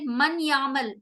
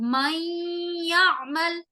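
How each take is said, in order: First: The n is said clearly, separate from y. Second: The n merges nasally into the y sound. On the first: The speaker calls it wrong. "हम ऐसे नहीं पढ़ सकते ... ये गलत होगा।" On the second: The speaker calls it right. "नून को मैं नाक में गुन्ना कर रही हूं।"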